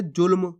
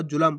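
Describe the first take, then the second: First: जुल्म as one beat, "julm"; सही उच्चारण. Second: जुलम with a full ल, "ju-lam"; गलत उच्चारण. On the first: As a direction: say जुल्म with ल joined straight to म. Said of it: "तो अपन पढ़ कैसे रहे". (जुल्म में आधा ल, म से जुड़ा) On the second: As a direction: misread जुलम in two beats. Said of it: "पूरा ला का उच्चारण". (जुलम में पूरे ल का उच्चारण) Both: Shown as a demonstration.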